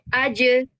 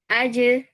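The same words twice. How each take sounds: First: The final consonant is released with strong push. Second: The final consonant is released weakly, without push. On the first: The speaker calls it right. "Kita harus kasih power di situ" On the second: The speaker calls it wrong. "kita nggak bisa sekedar uh, misalnya aje"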